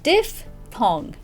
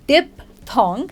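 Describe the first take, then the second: First: The middle sound is an f sound. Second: The middle sound is a p sound. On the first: The speaker calls it right. "because it's got the f, the ph in it" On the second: The speaker calls it wrong. "we don't say diphthong"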